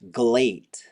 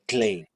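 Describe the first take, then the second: First: It starts with a G and a voiced L. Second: It starts with a D sound and unvoiced L. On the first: The speaker calls it wrong. "this turns into a G and a voiced L ... that is incorrect" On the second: The speaker calls it right. "it should be glate"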